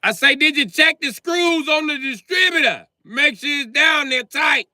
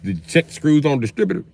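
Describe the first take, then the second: First: Shouting the question a third time into the phone; shouting over phone. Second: Said in the usual way. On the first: Acted. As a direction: yell it down a bad phone line.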